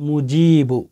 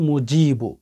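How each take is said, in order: The two takes are said the same way.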